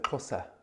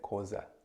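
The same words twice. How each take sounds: First: The name is said with its full native sounds. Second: The name is said with simplified, easier sounds. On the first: "if you can't pronounce that" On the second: "then you can just say Xhosa"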